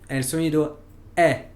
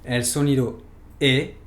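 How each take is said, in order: First: The "E" said as an open è, mouth wide. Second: The "E" said as a tense closed e. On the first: Teacher naming the open è sound for students, open and clear. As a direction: say "E" open and relaxed, like French è. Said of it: "E acento abierto". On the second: Teacher naming the closed é sound for students, tense and precise. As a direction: say "E" closed and tight, like French é. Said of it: "pero con un acento cerrado". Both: Shown as a demonstration.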